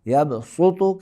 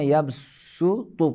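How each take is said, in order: First: The s sound is heavy and emphatic. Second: The s sound is light and plain. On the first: "यबसुतु के जगह में" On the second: "हर्फ सात के बजाय सीन को तलफ़ुज़ करेंगे"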